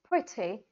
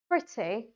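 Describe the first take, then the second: First: It is said in a British accent. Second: It is said in a British accent.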